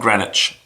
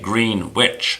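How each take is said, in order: First: The name is said in a British way. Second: The name is said in an American way.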